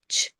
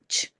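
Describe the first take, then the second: No difference in how they are said.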